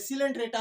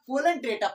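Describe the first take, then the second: First: The word begins with an S sound. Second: The word begins with a K sound. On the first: The speaker calls it right. "आप सीख जाएंगे सिलेंट्रेटा होता है" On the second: The speaker calls it wrong. "आप कोलेंट्रेटा पढ़िए"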